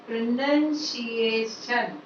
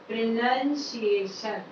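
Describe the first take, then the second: No difference in how they are said.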